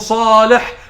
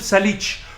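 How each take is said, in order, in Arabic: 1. الاسم بينتهي بصوت h. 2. الاسم بينتهي بصوت ch. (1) "اسمه صالح" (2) "جبت انت ساليتش منين دي بقى؟"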